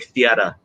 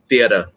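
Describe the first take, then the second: First: It is said in an old-time New York accent. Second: It is said in an ordinary modern accent. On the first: This is how people spoke in old movies. "they say theater" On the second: This is how people speak today. "we say theater"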